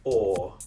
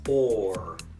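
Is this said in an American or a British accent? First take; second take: British; American. First: The R is dropped and the vowel held. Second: The R is sounded with the tongue rising. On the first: "In a British accent, the tongue stays still" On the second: "in an American accent, ... the tongue comes up at the end"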